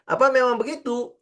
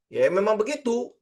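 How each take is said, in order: First: Higher, questioning the easy claim; doubting question. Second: Airy, offhand yes it's just that simple; breezy dismissal. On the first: Teacher questions whether trading is that simple. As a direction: pull it back with real doubt. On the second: Teacher mimics a trader's breezy it's-that-simple. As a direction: toss it off as if it's obvious. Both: Shown as a demonstration. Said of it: "ngomongnya simple kan?".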